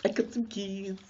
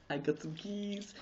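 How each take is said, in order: First: High playful voice, stress on "some". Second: High, soft playful voice, stress on "keys". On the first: Vlogger teasing viewers with her news, high with stress on "some". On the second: Vlogger teasing viewers with her news, softly stressing "keys". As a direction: drop to a hush and land on "keys". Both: Pretend.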